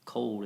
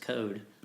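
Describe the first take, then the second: First: It is said in a standard accent. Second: It is said in a Kentucky accent.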